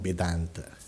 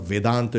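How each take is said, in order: First: The word begins with a B sound. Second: The word begins with a V sound. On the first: It means without teeth. The speaker calls it wrong. "it becomes Vedanta. Kind of a toothless" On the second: It names the philosophy. The speaker calls it right. "instead of Vedanta"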